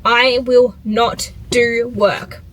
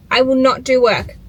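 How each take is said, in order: First: I will not do work, slow and deliberate, leaning on will; slow, stern promise to herself; self-lecture, word by word; firm promise. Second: I will not do work, pressed again with weight on do; telling herself off, insistently; insistent repeat. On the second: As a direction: repeat it like a scolding. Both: Real, not acted. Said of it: "Are you listening?".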